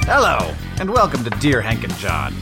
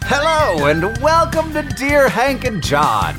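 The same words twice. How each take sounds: First: It is said with low energy. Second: It is said with high energy.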